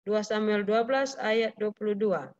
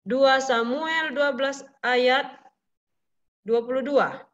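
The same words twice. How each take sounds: First: Said in the usual way. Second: Slow, spaced-out reading of the reference; slow dictation. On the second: Shown as a demonstration. Teacher reading Dua Samuel slowly for children to note. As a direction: let the class write it down. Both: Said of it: "repeated reference".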